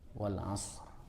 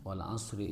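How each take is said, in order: First: The word ends on a consonant with no vowel. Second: The word ends with a short added vowel. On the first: The reader stops after this word. "kalau di waqaf jadi itu" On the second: The reader joins it to the next word. "Jika disambungkan"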